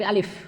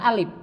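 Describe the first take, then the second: First: The word ends with an f sound. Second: The word ends with a p sound. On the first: The speaker calls it right. "tapi alif" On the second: The speaker calls it wrong.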